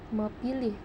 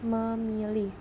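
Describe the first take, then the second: First: The middle consonant is a p sound. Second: The middle consonant is an m sound. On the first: The speaker calls it wrong. "tidak dibaca eh, dengan bacaan mepilih" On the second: The speaker calls it right. "tetapi dibaca dengan memilih"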